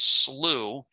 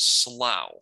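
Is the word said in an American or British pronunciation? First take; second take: American; British. First: The word is said with an American pronunciation. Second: The word is said with a British pronunciation. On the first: "the American pronunciation is slough" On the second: "the British pronunciation is slough"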